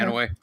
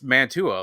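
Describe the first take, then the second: First: The name is said without a t sound. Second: The name is said with a t sound. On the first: This is how local residents say it. "all of us townies call it Manaway. Not there's no T in it either" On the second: This is the original, formal pronunciation. "I think it's Mantua, like how they said it in Romeo and Juliet"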